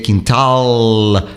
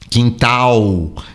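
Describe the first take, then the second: First: The final L has the tongue touching the palate. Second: The final L sounds like a U vowel. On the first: This is the English way. "em inglês seria quintal" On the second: This is the Portuguese way. "no português, o L final tem som de U"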